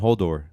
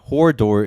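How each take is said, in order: First: No r sound comes before the d. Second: An r sound comes before the d. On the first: The speaker calls it right. "it's Hodor, not Hordor" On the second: The speaker calls it wrong. "Hordor is easier to say"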